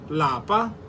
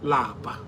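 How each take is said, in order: First: The word is said with a high tone. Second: The word is said with a low tone. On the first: It means home. "In higher tone, lapa means home" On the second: It means to be tired. "Lower tone, which lapa. Lapa means to be tired"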